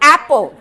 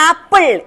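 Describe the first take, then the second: First: The word is said in a British-like style. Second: The word is said in a local Malayali style. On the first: The speaker calls it right. "It's ആപ്പോ" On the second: The speaker calls it wrong. "It's not ആപ്പിൾ"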